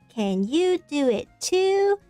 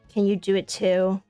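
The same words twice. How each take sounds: First: It is said in a lively, animated voice. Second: It is said in a flat, unanimated voice.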